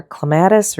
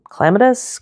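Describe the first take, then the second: First: Clematis said cluh-MAT-iss, middle syllable stressed; stress on second syllable. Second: Clematis said CLEM-uh-tiss, first syllable stressed. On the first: Painter unsure of the word tries clematis as cluh-MAT-iss. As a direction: put the weight on MAT in clematis. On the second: Painter unsure of the word tries clematis as CLEM-uh-tiss. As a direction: hit CLEM in clematis, higher, with a questioning rise. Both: Shown as a demonstration. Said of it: "not ever sure which way that word goes".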